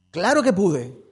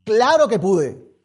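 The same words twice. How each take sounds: First: Said in the usual way. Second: Slow, loud, triumphant proclamation; triumphant shout. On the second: Real, not acted. Preacher proclaiming to the church, loud and triumphant. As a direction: ring it out in victory.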